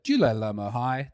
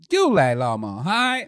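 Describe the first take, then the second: First: It is said with plain, ordinary intonation. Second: It is said with exaggerated, sweeping intonation. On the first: Listeners do not understand it. The speaker calls it wrong. "if you try and speak Chinese normally, they don't understand it" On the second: Listeners understand it. The speaker calls it right. "you got to hit the inflections"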